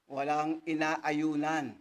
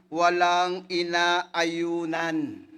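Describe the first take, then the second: First: Walang inaayunan repeated slowly at normal volume, inaayunan stressed; emphatic repeat. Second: Walang inaayunan stretched very slow and loud, falling at the end; drawn-out reading. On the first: Preacher driving the verse home, slow repeat of Walang inaayunan. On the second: Preacher ending the verse, walang inaayunan slow and loud. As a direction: lean hard on walang inaayunan, dragging it out loud. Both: Shown as a demonstration.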